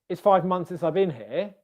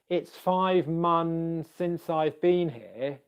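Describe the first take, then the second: First: The sentence is spoken very quickly. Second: The sentence is spoken slowly and carefully. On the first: The speaker calls it right. "If I say it really quickly" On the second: The speaker calls it wrong. "if I say that slowly"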